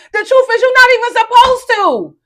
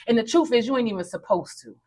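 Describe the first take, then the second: First: High, loud preacher's cry; preaching shout. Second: Said in the usual way. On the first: Acted. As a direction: belt it out like a revival preacher. Repeats the line, now shouted.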